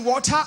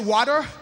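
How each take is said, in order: First: It is said with a British-style accent. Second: It is said with an American accent.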